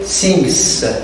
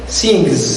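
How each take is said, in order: First: The word ends with a hissing s sound. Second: The word ends with a buzzing z sound. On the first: The speaker calls it wrong. "You do not say sings. No, it's not correct" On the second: The speaker calls it right. "You say sings. ... it is pronounced as a sound Z"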